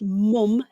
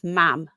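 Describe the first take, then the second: First: The vowel is like the one in cup. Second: The vowel is like the one in cat. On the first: This is the usual form in most of the UK. "So in the U K, it's mum, M U M" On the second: This is the form used in the north. "if you go up north to like Newcastle, it's mam"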